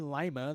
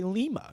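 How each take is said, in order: First: The first vowel is not an 'ee' sound. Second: The first vowel is an 'ee' sound. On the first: This is the English way of saying it. The speaker calls it wrong. "in Spanish they don't say lima" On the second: This is the Spanish way of saying it. The speaker calls it right. "they say lima. Everything is an E"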